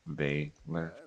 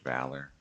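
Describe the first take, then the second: First: The first vowel rhymes with eight. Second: The first vowel is short, as in cat. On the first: The speaker calls it wrong. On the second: The speaker calls it right.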